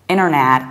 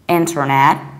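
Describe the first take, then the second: First: The middle t sound is dropped. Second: The middle t sound is pronounced. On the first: "many Americans will actually skip middle T and they will say inner" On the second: "pronouncing very strongly re"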